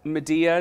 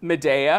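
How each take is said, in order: First: The name is said with English pronunciation. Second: The name is said with Italian pronunciation. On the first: "but Medea is just fine" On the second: "we say Medea uh-huh. because the opera's in Italian"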